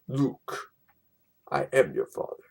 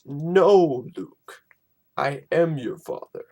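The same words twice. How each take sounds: First: Said in the usual way. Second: "No" loud, then a breathy "Luke"; correct version. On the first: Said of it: "It's not". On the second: Shown as a demonstration. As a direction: start with a loud "No" before "I am your father". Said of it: "that's how it's said".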